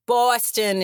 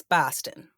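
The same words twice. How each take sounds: First: "Boston" in a Boston accent, first vowel drawn out; Boston pronunciation. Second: "Boston" in a Fall River accent, shorter first vowel; Fall River pronunciation. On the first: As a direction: say "Boston" slowly with a long, rounded first vowel. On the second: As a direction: say "Boston" lower, the Fall River way, without drawing it out. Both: Shown as a demonstration. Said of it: "It's different".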